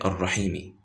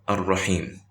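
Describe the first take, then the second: First: The word ends with an added short i vowel. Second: The word ends on a consonant, no final vowel. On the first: The speaker continues speaking past this word. The speaker calls it wrong. "I didn't say Ar-Rahimi" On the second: The speaker is stopping on this word. The speaker calls it right. "I said Ar-Rahim"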